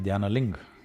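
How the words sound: The final syllable is dropped, North Indian style.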